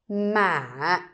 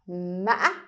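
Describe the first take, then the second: First: The pitch rises slightly, then falls. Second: The voice breaks and ends very high. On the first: "going up a little bit and then you need to pull the word down" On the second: "it sounds like you trip when you say this word"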